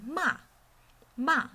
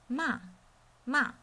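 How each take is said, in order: Both takes have the same delivery.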